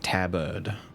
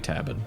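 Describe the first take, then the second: First: The second syllable is a stressed 'erd' sound. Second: The second syllable is a reduced 'id' sound. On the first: "you emphasize the, like the E R D sound" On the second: "It has to be tabid"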